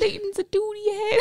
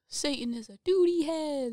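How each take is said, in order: First: It is said in a very high-pitched voice. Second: It is said in a normal voice.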